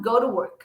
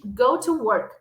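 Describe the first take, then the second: First: Quick, run-together go to work; casual rapid go to work; said fast. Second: Said in the usual way. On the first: Shown as a demonstration. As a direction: rattle off go to work as one word. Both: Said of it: "Ou falando rápido".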